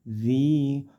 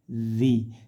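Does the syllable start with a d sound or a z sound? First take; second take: z; z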